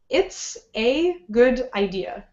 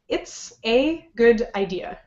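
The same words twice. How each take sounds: First: Each word is said separately with pauses. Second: Each word is said separately with pauses.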